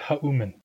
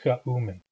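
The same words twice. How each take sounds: First: It starts with a soft breathy H sound. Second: It starts with a raspy sound at the back. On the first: The speaker calls it wrong. "tempted to pronounce that X as an H" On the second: The speaker calls it right. "it is not an H sound. It is chaumen"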